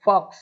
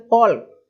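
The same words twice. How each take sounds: First: "फॉक्स" with no L sound; correct silent L. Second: "फॉल्क" with the silent L sounded; mispronounced fall-k. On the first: Shown as a demonstration. Teacher showing students the right reading, "फॉक्स" with silent L. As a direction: say "फॉक्स", long vowel straight into K. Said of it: "फॉक्स इस तरीके से". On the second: Retold or imitated. Teacher mimicking learners' misreading, "फॉल्क" with L sounded. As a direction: say "फॉल्क" loudly, pronouncing the L before K. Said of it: "अब इसको भी लोग पढ़े".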